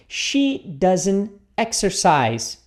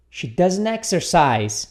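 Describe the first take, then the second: First: She doesn't exercise, drawn out word by word; very slow model. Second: She doesn't exercise said again, somewhat slowly; slow model. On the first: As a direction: stretch it out for the learner. (bem devagar, palavra por palavra) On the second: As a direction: repeat it steadily for the class. (repetição modelo um pouco lenta) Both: Shown as a demonstration.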